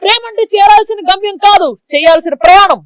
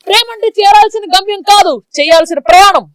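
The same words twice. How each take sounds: First: It is spoken in a fierce, heroic tone. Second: It is spoken in a fierce, heroic tone.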